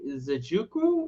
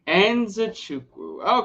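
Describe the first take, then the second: First: The name begins without an 'n' sound. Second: The name begins with an 'n' sound. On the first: The speaker calls it wrong. "Is that it?" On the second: The speaker calls it right. "that's how we pronounce it"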